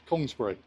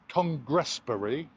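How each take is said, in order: First: The middle syllable is dropped, said quickly. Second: The middle syllable 'gress' is said in full. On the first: "That's Kongsbury" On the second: "I've heard it called like Congressbury"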